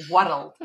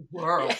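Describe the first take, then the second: First: "world" in two syllables, like "wuh-ruld"; broad Scots "world"; broad Scottish pronunciation. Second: "world" as one long syllable, "wurld"; refined one-syllable "world"; posh Scottish pronunciation. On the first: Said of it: "Apart from posh Scots". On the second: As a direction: say "world" like a posh Scot, slow and smooth. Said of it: "posh Scots who say world". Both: Shown as a demonstration.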